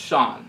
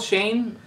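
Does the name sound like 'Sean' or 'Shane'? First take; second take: Sean; Shane. First: The name is said with an 'aw' vowel. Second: The name is said with a long 'ay' vowel. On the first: The speaker calls it right. "it's pronounced Sean" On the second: The speaker calls it wrong. "it's spelled Shane"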